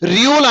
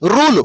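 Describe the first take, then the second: First: A 'y' glide comes before the vowel. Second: The vowel comes with no 'y' glide. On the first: The speaker calls it wrong. "రియూల్ అనకూడదు" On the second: The speaker calls it right. "రూల్ అంటారు"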